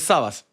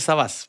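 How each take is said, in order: First: The stress is on the first syllable. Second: The stress is on the last syllable. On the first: The speaker calls it right. "sin tilde" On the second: The speaker calls it wrong. "mucha gente me dice Sabas, pero no es Sabas"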